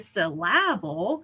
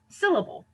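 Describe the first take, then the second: First: The stress falls on an unexpected syllable. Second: The stress falls on the expected syllable. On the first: The speaker calls it wrong. "I don't say syllable" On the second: The speaker calls it right. "but syllable"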